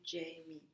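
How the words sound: The name is said with an English pronunciation. "You probably pronounce it Jamie"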